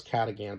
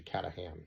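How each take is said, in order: First: "Catagan", third syllable as GAN; alternative pronunciation. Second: "Catahan", third syllable as HAN; supposed correct pronunciation. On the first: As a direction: say "Catagan" with a hard g in the last syllable. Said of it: "how to pronounce it properly". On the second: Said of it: "I think it was actually". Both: Shown as a demonstration.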